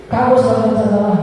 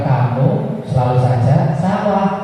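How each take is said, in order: First: Very high, rushed accusation, falling at the end; accusing, in one fast high-pitched run; rapid punisher's scolding. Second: Slow, drawn-out singsong; deliberately slow, lilting demonstration of how not to scold; the wrong way. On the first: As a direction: fire it off like a punishing teacher. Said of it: "Saking cepatnya tidak terdengar". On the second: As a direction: stretch it out slowly with swooping pitch. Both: Shown as a demonstration.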